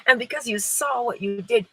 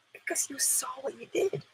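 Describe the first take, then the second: First: Said in the usual way. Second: Breathy hushed whisper. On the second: Real, not acted. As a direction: lean in and whisper it. Dramatic aside.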